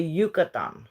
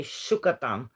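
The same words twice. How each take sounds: First: Yucatán said as "Yoo-ka-TAN", the Y like English y; Yucatán with a clear y sound at the start, Mexican style; Mexican pronunciation. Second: Yucatán said as "Shoo-ka-TAN", the Y like English sh; Uruguayan pronunciation. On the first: Uruguayan woman showing viewers how Mexicans say it, Yucatán with a y sound. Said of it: "they probably say Yucatán". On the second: Uruguayan woman showing viewers how her country says it, Yucatán with an sh sound. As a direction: Rioplatense Yucatán with a soft sh sound at the start. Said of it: "we say Yucatán". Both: Shown as a demonstration.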